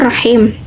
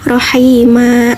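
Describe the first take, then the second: First: The word ends on the consonant m. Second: The word ends on a final a vowel. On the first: The speaker calls it wrong. "bukan rohim" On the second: The speaker calls it right. "diwakafkan menjadi rohima"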